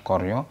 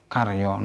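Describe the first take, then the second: First: "koryo" said "kor-yaw", first vowel rounded o; "koryo" with o before the r; wrong O vowel. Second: "karyo" said "kar-yaw", first vowel open ah; "karyo" with ah before the r. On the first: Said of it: "not koryo". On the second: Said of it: "A followed by R is always pronounced". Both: Shown as a demonstration.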